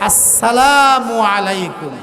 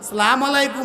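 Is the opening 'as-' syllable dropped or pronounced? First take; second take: pronounced; dropped. First: The greeting is said in full, every syllable clear. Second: The greeting is clipped, without the opening syllable. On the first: The speaker calls it right. "সালাম দিতে হবে শুদ্ধ করে" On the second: The speaker calls it wrong. "এভাবে নয়"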